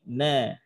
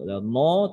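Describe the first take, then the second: First: The syllable is thin, with a clear a vowel. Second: The syllable is heavy, with a dark o-like vowel. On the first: The speaker calls it right. "Ketemu na tipis" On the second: The speaker calls it wrong. "Kadang-kadang nanya ngikut tebal"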